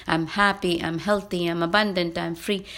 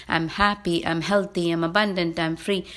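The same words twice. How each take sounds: The two takes are said the same way.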